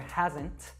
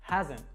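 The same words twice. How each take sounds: First: The final T is clearly pronounced. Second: The final T is dropped. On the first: The speaker calls it wrong. "we don't actually say" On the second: The speaker calls it right. "So we drop that T sound"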